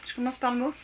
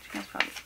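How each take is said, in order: First: Said in the usual way. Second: "Je commence par le mot" repeated in a much lower, put-on voice. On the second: Shown as a demonstration. Repeats to viewers in a comic low voice, much lower.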